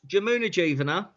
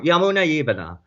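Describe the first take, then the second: First: The name begins with a J sound. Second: The name begins with a Y sound.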